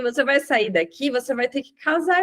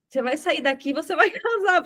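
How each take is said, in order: First: Said in the usual way. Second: Telling her she must marry while laughing; firm words breaking into a laugh. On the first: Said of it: "Falei assim". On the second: Retold or imitated. Preacher to the woman in the ICU, laughing as she speaks. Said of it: "Falei desse jeito pra ela, foi muito engraçado".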